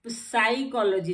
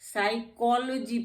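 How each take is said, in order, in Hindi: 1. शब्द की शुरुआत s से पहले p ध्वनि से होती है। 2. शब्द की शुरुआत s ध्वनि से होती है, p नहीं। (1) "साइकोलॉजी नहीं पढ़ते हैं" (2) "साइकोलॉजी पढ़ते हैं इसको हम"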